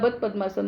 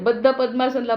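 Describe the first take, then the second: First: The words get Hindi-accented pronunciation. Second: The words get careful Sanskrit pronunciation. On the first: Others say the term this way. The speaker calls it wrong. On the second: This is the proper term. The speaker calls it right.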